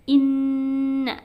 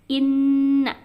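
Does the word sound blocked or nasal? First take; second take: nasal; nasal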